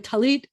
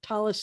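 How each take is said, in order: First: The word ends with a t sound. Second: The word ends with an s sound. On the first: This is the Hebrew form of the word. "is the Hebrew word" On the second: This is the Yiddish form of the word. "is the Yiddish word"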